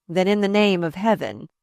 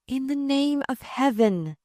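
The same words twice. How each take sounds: First: Lightly voiced man's retort; man answering back. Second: Pleading woman. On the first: He answers Catherine's appeal, lightly voiced and firm. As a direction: answer firmly, close to the narrating voice. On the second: Catherine asks the man about jail, pleading and high. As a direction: voice her appeal in a raised pitch. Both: A narrator's reading.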